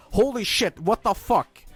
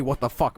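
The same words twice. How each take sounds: First: Much higher, exasperated cry; angry outburst. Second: Said in the usual way. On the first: Retold or imitated. Son receiving a second well-done steak, outraged and much higher. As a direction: blurt it out in disbelief. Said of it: "And I go". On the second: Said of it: "I don't say".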